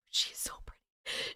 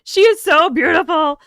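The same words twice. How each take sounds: First: Barely audible whisper; very soft, voiceless gushing; awed whisper. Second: Loud, higher-pitched gushing; gushing admiration. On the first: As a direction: whisper it in admiration. Gushing over a selfie photo. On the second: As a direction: exclaim it with open adoration. Gushing aloud over the photo. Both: Real, not acted.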